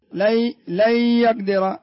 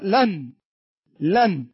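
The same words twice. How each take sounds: First: لن يقدر slow, noon merged into ya: "le yaqdir". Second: لن with a clearly pronounced noon. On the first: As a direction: drop the noon of لن into the ya. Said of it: "لكن هنا لن يقدر". (إدغام نون لن في الياء ببطء) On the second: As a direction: sound the noon in لن fully. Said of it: "انظر الإظهار كيف تقول". (نون ظاهرة واضحة) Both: Shown as a demonstration.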